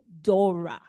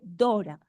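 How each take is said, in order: First: The vowels sound like English vowels. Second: The vowels sound like Spanish vowels. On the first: The speaker calls it right. "se dice Dora" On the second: The speaker calls it wrong. "No se dice Dora"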